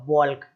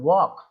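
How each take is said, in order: First: An l sound is heard before the k. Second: No l sound is heard before the k. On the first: The speaker calls it wrong. "ऐसे बोलते बॉल्क, अरे भाई क्या बोले जा रहे हो" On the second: The speaker calls it right. "इस तरीके से केवल वॉक पढ़ना है आपको"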